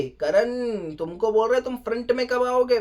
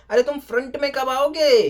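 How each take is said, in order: First: Said in the usual way. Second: Louder, higher scold, half-acted host; imitating the host's raised challenge; mock scolding. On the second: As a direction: push Karan to step up, raised voice. Host scolds Karan, first take.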